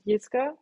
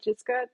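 First: The first letter is said the German way. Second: The first letter is said the English way. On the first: This is how people in Germany say the name. "in Germany, if something starts with a J, we pronounce it Jiska" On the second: This is how people in the US say the name. "in the US, most people call me Jiska, just like the J"

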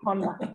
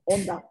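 First: Honda is pronounced with an English accent. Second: Honda is pronounced with a Spanish accent. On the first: The speaker calls it right. "you guys say Honda" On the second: The speaker calls it wrong. "I pronounced it the Spanish way"

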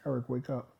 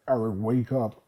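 First: It is said in a normal voice. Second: It is said in a demon-like voice.

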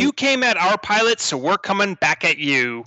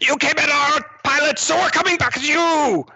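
First: It is said in the speaker's ordinary voice. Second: It is said in a put-on character voice.

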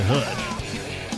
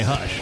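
First: It is said with a Southern drawl. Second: It is said in a plain, neutral accent. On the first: The speaker calls it right. "You gotta slang it up a little bit with a little southern" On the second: The speaker calls it wrong. "I didn't say hush"

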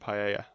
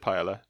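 First: The word is said with a Spanish pronunciation. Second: The word is said with an anglicized pronunciation. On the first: The speaker calls it right. "I meant paella. That's how you say it" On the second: The speaker calls it wrong. "I said paella"

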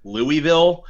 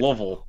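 First: It is said the way outsiders say it. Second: It is said the way locals say it. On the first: The speaker is marked as someone from elsewhere. The speaker calls it wrong. "everyone will know you're a big time outsider if you say Louisville" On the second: The speaker is treated as familiar with the city. The speaker calls it right. "I pronounce it the way that the locals pronounce it"

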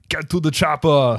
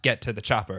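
First: Said in a heavy Austrian-style accent. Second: Said in a plain, ordinary accent. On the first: "he has a fun accent to do" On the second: "it's not get to the chopper"

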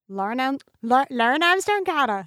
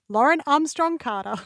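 First: The name is said in an odd accent. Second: The name is said in a normal accent. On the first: The speaker calls it wrong. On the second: The speaker calls it right.

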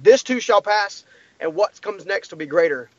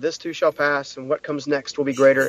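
First: It sounds sincere and fully convinced. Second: It sounds half-hearted and unconvinced.

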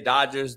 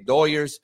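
First: The name is said with an English pronunciation. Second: The name is said with a Spanish-style pronunciation. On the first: This is how English speakers say it. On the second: This is how Spanish speakers say it. "The Hispanics say Doyers"

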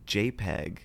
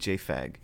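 First: The middle is said with a P sound. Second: The middle is said with an F sound.

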